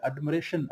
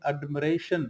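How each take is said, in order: First: एडमरेशन said as admireshun, short i after m; correct pronunciation. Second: एडमरेशन again as admireshun, short i; correct pronunciation repeated. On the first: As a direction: say एडमरेशन with a short i, not a long ai. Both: Shown as a demonstration. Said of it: "एडमायरेशन नहीं".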